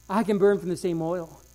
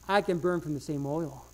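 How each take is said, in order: First: Burn leaned on, said a bit fuller; the preacher repeats, now hitting "burn"; stress on burn. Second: Soft first take. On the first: Preacher to congregation, repeating with burn stressed. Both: Shown as a demonstration.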